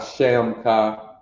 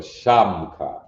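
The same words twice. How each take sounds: First: "shamka" with the first vowel as e in "shem"; the wrong way, "shamka" said like "shemka". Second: "shamka" with an open a, "shahm-ka", said slowly; the right way, "shamka" with a broad ah; right vowel. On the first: Teacher shows the wrong way, "shamka" said as "shemka". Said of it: "not shamka". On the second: Teacher models the correct "shamka", open ah, slowly. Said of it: "but shamka". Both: Shown as a demonstration.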